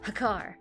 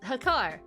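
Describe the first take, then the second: First: It is said in a cool, suave tone. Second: It is said plainly, without any cool tone.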